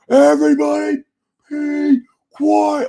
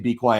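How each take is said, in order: First: Much higher-pitched test yell, held a little back; retold yell. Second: Said in the usual way. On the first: Testing own yelling on a decibel meter, yelling. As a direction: yell it at about three-quarter strength. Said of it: "Let me test me yelling then".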